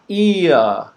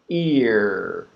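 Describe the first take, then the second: First: The word is said with a British accent. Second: The word is said with an American accent. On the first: "Not ear. That's British" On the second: "if you want the American pronunciation"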